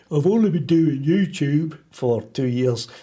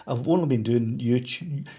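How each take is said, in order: First: Badly faked voice of somebody else, slowed and louder; terrible impersonation. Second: Said in the usual way. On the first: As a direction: do a hammy, drawn-out bad impersonation. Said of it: "That was a terrible impersonation of somebody". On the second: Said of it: "That was a terrible impersonation".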